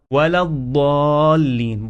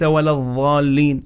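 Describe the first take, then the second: First: Slow الضالين with emphatic d; heavy dad. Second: الضالين with a th-like sound, as in "this"; dha for dad. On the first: Teacher correcting the mistake, الضالين with emphatic d. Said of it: "ولا الضالين بالضاد". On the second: Teacher showing a common mistake, الضالين with dh for d. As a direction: misread الضالين as adh-dhaalleen. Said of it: "البعض بالضاد". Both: Shown as a demonstration.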